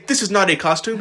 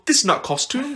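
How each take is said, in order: First: Said in the usual way. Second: "This is not costume." in a higher, mock Russian accent. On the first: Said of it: "He wouldn't say". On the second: Imitating the actor playing Vlad, in a mock Russian accent. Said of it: "He'd go".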